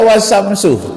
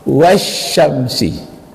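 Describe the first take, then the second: First: The word ends with a u vowel. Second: The word ends with an i vowel. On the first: The speaker calls it wrong. "tak boleh dibaca" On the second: The speaker calls it right. "setiap waw sumpah itu harus baris bawah sesudahnya"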